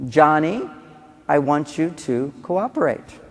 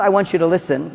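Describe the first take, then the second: First: Calm request. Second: Said in the usual way. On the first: Shown as a demonstration. Parent to Johnny, slow calm request. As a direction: ask calmly and slowly for cooperation. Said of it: "This is what you say".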